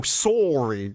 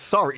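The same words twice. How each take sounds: First: Sorry as a drawn-out SORE-ee; Canadian pronunciation. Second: Said in the usual way. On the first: Retold or imitated. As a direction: insist on a long Canadian OR in Sorry. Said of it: "gets really Canadian sometimes and goes". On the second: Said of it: "And it's".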